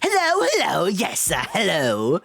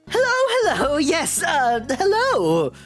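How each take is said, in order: First: A Baby Vegeta voice with more crackle. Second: A Baby Vegeta-like voice with less crackle.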